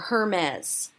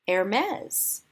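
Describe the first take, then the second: First: It is said in an anglicized way, like English spelling. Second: It is said the French way, stressing the second syllable. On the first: The speaker calls it wrong. "It is not pronounced Hermes" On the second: The speaker calls it right. "which is French"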